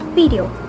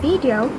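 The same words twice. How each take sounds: First: It is said with a Konglish accent. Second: It is said with an American accent. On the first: "will be pronounced as" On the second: "from G A"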